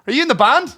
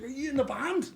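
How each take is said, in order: First: High, loud mock question; mock eager question. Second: High, much softer imitation of the guy; imitating his question. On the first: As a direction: ape the guy's pushy high asking. Retold stranger asking at door. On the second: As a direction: copy how he asked it, high and soft. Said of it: "Like this".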